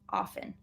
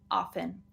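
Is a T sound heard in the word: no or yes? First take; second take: no; no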